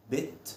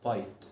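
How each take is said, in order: First: "bit" with a short i, as in it; teacher showing short vowel. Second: "bite" with a long "ai" like eye; teacher showing silent e making long i. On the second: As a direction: glide the vowel in "bite". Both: Shown as a demonstration.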